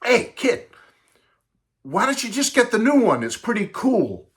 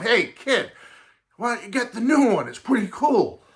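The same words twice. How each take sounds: First: Put-on much higher, casual teen voice; laid-back teenager talking to a little boy; seventies teen. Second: Put-on much higher, casual teen voice; laid-back teen recommending a record; seventies lingo. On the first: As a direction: toss it off like a cool seventies kid. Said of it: "Typical seventies kid said". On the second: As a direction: say it like a cool seventies kid. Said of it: "along that seventies lingo of".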